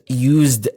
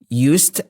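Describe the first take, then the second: First: It is pronounced the way the adjective is. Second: It is pronounced the way the modal verb is. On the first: "and used as an adjective" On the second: "used as a modal verb"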